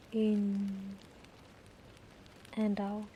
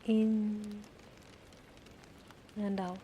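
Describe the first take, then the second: No difference in how they are said.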